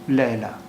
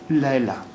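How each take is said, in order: Both takes have the same delivery.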